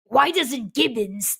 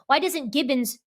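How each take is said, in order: First: It is said in a put-on Lrrr voice. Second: It is said in his normal voice.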